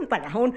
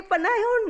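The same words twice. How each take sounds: First: Said in the usual way. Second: Playful high panahon; high repeat. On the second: Shown as a demonstration.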